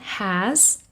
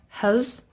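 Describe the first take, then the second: First: Said in full with a clear, unreduced vowel. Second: Said weakly with a reduced, unclear vowel. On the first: The word is stressed or said on its own. "This is the strong form" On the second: The word is unstressed in normal speech. "very often it becomes has"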